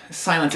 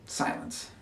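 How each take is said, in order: First: Louder, falling SILENCE; firm declaration. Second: Very soft, whispered SILENCE; hushed whisper. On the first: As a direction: state it firmly, out loud. Monologue names silence, pressing on. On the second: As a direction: let the word drop to a whisper. The word silence, hushed after pause. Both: Acted.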